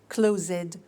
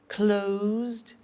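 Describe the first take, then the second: First: The ending is said as an extra syllable. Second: The ending is a plain D sound. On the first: The speaker calls it wrong. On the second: The speaker calls it right.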